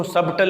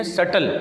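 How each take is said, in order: First: سبٹل as "SUB-tal"; wrong spelling pronunciation. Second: سٹل as "SUT-al"; correct silent-b pronunciation. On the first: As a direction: sound the b in سبٹل. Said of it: "سبٹل نہیں پڑھیں گے". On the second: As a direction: say سٹل without any b. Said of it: "اس میں بی silent ہے". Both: Shown as a demonstration.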